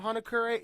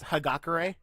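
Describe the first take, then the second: First: The name is said as Hanakura. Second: The name is said as Hagakure. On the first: This is the speaker's preferred version. "I'm gonna call him Hanakura" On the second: This is the official pronunciation. "apparently his name is pronounced Hagakure"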